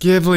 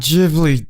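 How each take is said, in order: First: The word begins with a hard G sound. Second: The word begins with a soft J sound. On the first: "I pronounce it as Ghibli" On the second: "sounds like a fucking gelatin"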